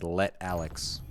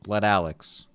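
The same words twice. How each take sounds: First: There is a pause between the two words. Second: The two words run together without a pause. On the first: The speaker calls it wrong. "in my head, I always was reading it reading it as Let Alex" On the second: The speaker calls it right. "But no pause between Let Alex"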